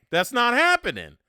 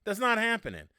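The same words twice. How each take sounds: First: Loud, flat-out no; emphatic refusal. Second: A hint of a wrestling tough guy; Stone Cold Steve Austin catchphrase. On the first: Real, not acted. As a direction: shut the idea down hard, higher. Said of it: "Eh, eh". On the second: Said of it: "Like my man Stone Cold Steve Austin would say".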